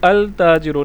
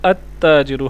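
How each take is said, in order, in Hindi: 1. T से पहले L साफ़ तौर पर pronounce होता है। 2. L doubled T की आवाज़ में मिल जाता है। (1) "हम इसको अल ताजिरु नहीं पढ़ेंगे" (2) "अत ताजिरु पढ़ेंगे, क्योंकि ये हरूफ शमसिया है"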